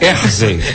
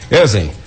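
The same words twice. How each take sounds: First: The name is said with an R sound. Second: The name is said without an R sound. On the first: The speaker calls it right. "botar o R no meio? ... Aí ficou melhor" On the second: The speaker calls it wrong. "você me chamou de Ezen"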